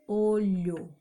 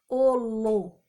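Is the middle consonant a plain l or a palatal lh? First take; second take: palatal lh; plain l. First: The middle consonant is a palatal lh sound. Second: The middle consonant is a plain l sound. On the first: The speaker calls it right. "O L também emprestando som para o H" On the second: The speaker calls it wrong. "Se eu não coloco o H, fica olo"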